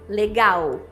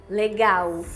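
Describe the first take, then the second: The two takes are said the same way.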